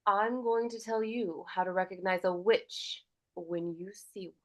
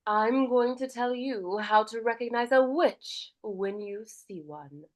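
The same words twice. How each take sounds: First: Firm, clipped-ending warning, dropping to a whisper; stern, strict grandmother. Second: Warmer, nurturing grandmother. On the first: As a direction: scold gently like a strict grandmother. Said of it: "stern and strict". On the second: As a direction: speak like a caring grandmother sharing a warning. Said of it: "she sounds warmer". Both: Shown as a demonstration.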